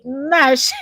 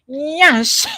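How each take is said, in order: First: It starts with a plain n sound, no y. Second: It starts with an n followed by a y glide. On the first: The speaker calls it wrong. "exactly how the Caucasians will say it" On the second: The speaker calls it right. "It's not Nash. It's Nyash"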